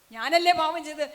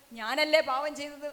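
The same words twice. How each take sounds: First: ഞാനല്ലേ pushed out much louder the second time; the woman presses the weeping priest, louder; insistent repeat. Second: Said in the usual way. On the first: Retold or imitated. Penitent woman asks the priest.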